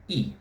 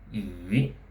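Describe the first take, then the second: First: The pitch drops sharply from high to low. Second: The pitch dips low and then rises. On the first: "the falling tone" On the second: "the falling and rising tone"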